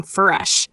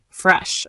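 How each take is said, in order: First: "fresh" stretched to "fuh-resh"; drawn-out sounds. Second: Said in the usual way. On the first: Shown as a demonstration. Teacher repeats it for learners, sounds drawn out. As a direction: pull apart the opening sounds of "fresh".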